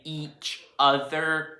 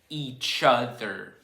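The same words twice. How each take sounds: First: The two words are said separately and distinctly. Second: The two words run together like one word. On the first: The speaker calls it wrong. "You don't say each other when it's in a sentence" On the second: The speaker calls it right. "it's just like high school and tennis shoes"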